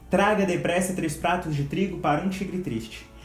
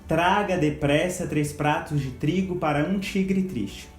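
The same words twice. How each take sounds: First: It is said quickly with a steady rhythm. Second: It is said slowly and deliberately. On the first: "repetir esse trava-línguas, aumentando o ritmo" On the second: "vocês vão pronunciá-lo lentamente, de uma forma bem devagar"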